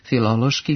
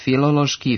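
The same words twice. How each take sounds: First: A short rising accent on the inner syllable. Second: The inner syllable has no short rising accent. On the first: The speaker calls it right. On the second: The speaker calls it wrong.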